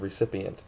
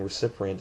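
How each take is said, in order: First: Recipient said cleanly as "re-CIP-ee-ent"; correct pronunciation. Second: Recipient said with an extra R, "re-CIP-rient"; mispronunciation. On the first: Shown as a demonstration. Correcting the old principal's word, correct pronunciation. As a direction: say recipient without any extra R. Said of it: "no extra R in recipient". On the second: Retold or imitated. Imitating my old principal's slip, mispronunciation. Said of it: "instead of recipient".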